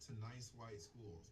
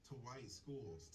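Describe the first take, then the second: First: Slow, with "nice" set apart and savored; stress on nice. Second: Said in the usual way. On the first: Shown as a demonstration. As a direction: give "nice" a pointed, ironic weight. Repeat adds a stressed word.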